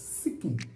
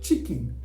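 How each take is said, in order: First: The word begins with an 's' sound. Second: The word begins with a 'ch' sound.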